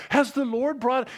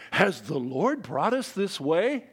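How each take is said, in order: First: Higher, pointed echo of "Has the Lord brought"; mock piety, higher. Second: Slow, put-on pious voice, lightly done; a faithless king playing holy, slowly; mock pious king. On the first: Preacher repeats the king's line to mock it, higher. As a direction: jab at it in a higher voice. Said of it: "he's trying to wear this, this garb of piety". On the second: Preacher mocks Joram's sudden fake piety, slow and pious. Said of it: "tries here to dress suddenly in piety".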